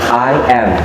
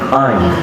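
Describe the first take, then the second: First: The two words are said separately, one by one. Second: The words are shortened into one syllable. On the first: "Dipisah. ... Jadi diucapinya satu kata satu kata" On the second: "the third one is we use construction. Disingkat"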